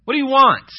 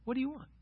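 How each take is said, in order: First: Loud, high-pitched, rude demand. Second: Very soft, high, gentle question; kind. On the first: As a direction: throw the question at them rudely. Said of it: "said it in a rude way". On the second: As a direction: ask it kindly, almost under the voice. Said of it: "said it in a kind way". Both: Acted.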